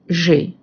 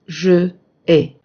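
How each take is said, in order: First: The two words merge into one syllable. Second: Both vowels are said as separate syllables. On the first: The speaker calls it right. "we say j'ai" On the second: The speaker calls it wrong. "and not je ai"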